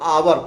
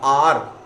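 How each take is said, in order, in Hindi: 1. यह शब्द दो अक्षर में बोला जाता है। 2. यह शब्द एक अक्षर में बोला जाता है। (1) "कुछ लोग इसको आवर बोलते हैं" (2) "रियल प्रोनाउंसिएशन जो है वो आर है"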